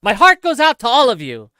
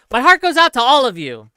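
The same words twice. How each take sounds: First: A light take on Elon's line, a bit higher and louder; lightly voiced Elon repeating his line; Elon impression. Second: A light take on Elon's line, a bit higher and louder; lightly voiced Elon line again; Elon impression. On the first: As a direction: echo Elon's words as a quick demo. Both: Shown as a demonstration. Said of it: "can you please do an Elon salute impression".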